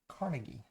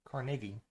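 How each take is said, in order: First: It is said the southern US way. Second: It is said the northern US way.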